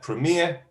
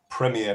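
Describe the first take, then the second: First: It is said with an American accent. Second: It is said with a British accent. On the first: "that's American English" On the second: "we're going to go to British English"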